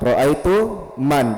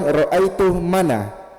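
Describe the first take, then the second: First: The last word ends on a bare n consonant. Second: The last word ends with an added a vowel. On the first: The speaker calls it right. "Tetap disukun" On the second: The speaker calls it wrong. "Jangan bilang ra'aitu mana"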